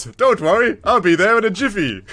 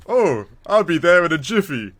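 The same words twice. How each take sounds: First: Ethan's line said higher and louder, cheerfully; mock breezy agent. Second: Lightly voiced cheerful agent, higher; a hint of a breezy hero promising to hurry; mock suave agent. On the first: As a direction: toss it off like a carefree hero. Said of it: "Ethan goes". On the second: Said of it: "being the manliest, badass agent".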